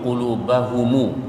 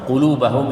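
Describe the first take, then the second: First: The word ends with a lengthened u vowel. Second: The word ends on a closed m sound. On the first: This is the other reading being taught tonight. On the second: This is the usual reading of this text.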